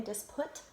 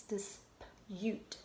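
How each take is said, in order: First: "disput" ending like the word put; mispronounced. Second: Said in the usual way. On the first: Shown as a demonstration. Teacher showing how it would sound funny, mispronounced. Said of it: "That would sound funny". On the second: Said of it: "It's dispute".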